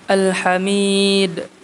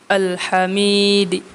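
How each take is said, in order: First: The long vowel is held briefly, ending in silence. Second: The vowel is brief; a faint vowel follows d. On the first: "dengan mad aridi sukunnya dua" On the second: "ar-raum ma'al qasri dengan raum dan dibaca dua harakat"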